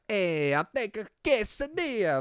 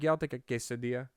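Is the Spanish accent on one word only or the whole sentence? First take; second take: whole sentence; one word. First: The whole sentence has a Spanish accent. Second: Only the Spanish word has a Spanish accent.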